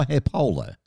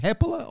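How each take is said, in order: First: Hepola stressed on the middle syllable, he-POH-la; second-syllable stress. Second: Hepola stressed on the first syllable, HEP-ola. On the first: Host offering the other surname option, Hepola as he-POH-la. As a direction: lean on the PO in Hepola. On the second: Host checking a guest's surname, Hepola as HEP-ola. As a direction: say Hepola with the weight up front. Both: Shown as a demonstration. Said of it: "is it Hepola or Hepola?".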